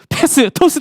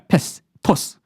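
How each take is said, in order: First: Each word is said with two full syllables. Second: Each word is clipped to one syllable. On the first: "목사님처럼 이음절로 해봤어요" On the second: "패스 토스는 이름절이죠. 패스 스는 지나가요"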